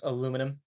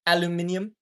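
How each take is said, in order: First: Said in the usual way. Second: "Aluminium" with an extra syllable, al-yoo-MIN-ee-um; "Aluminium" in five syllables, stressed on MIN; British pronunciation. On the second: Shown as a demonstration. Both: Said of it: "You just need to pronounce aluminum".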